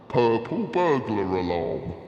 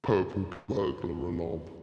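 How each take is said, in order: First: It is said loudly. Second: It is said quietly.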